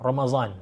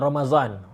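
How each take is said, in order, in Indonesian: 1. Konsonan tengahnya bunyi z. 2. Konsonan tengahnya bunyi z.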